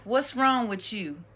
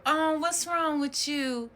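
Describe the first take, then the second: First: Mildly voiced question from a nosy relative; concerned asker. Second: Higher, drawn-out mock-sympathetic coo; cooing concern. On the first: Relative asking a child in trouble, matter-of-fact imitation. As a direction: ask it straight, lightly imitating family. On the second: Relative asking a child in trouble, put-on cooing concern. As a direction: imitate a relative fussing over a child, slowly.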